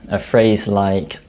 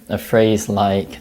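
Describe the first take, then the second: The two takes are said the same way.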